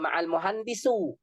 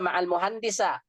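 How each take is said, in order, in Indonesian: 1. Kata terakhir diakhiri dengan vokal u. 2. Kata terakhir diakhiri dengan vokal a. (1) "nggak boleh baca juga ma'al muhandisu" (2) "Nggak boleh dibaca ma'al muhandisa"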